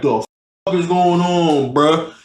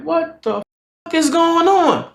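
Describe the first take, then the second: First: Lightly voiced slow, drunken bafflement; drunk guy's confusion. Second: High, hushed mock bafflement; baffled disbelief. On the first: Drunk man interrupted in bed, lightly mocked confusion. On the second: Friend walks in on moaning, baffled. Reacting to moans he walked into.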